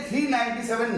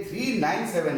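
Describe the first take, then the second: First: "नाइंटी सेवन" said as one two-digit number; grouped-number reading. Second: "थ्री नाइन सेवन" as three separate digits; name each digit singly: "थ्री", "नाइन", "सेवन"; digit-by-digit reading. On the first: Teacher showing the mistake to students, "नाइंटी सेवन" grouped as one number. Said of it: "ये थ्री नाइंटी सेवन नहीं है". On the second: Teacher correcting the decimal reading, "थ्री नाइन सेवन" digit by digit. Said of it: "ये थ्री नाइन सेवन है". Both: Shown as a demonstration.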